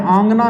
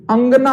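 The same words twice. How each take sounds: First: "आंगना" with a long opening aa; wrong form. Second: "अंगना" with a short first a; correct form. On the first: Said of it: "आंगना नहीं होता". ("आंगना" लंबे आ से, गलत रूप) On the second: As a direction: start "अंगना" short, not aa. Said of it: "अंगना होता है". ("अंगना" छोटे अ से, सही रूप) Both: Shown as a demonstration.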